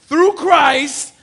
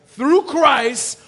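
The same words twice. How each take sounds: The two takes are said the same way.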